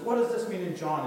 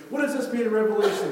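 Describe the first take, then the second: First: Higher, louder eager question; acted insistent question. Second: Loud, high-pitched pestering question; urgent questioning. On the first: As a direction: imitate a keen convert pressing for answers. Eager convert phoning with questions. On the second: Retold or imitated. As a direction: imitate an over-eager convert demanding answers. Convert pressing harder with questions.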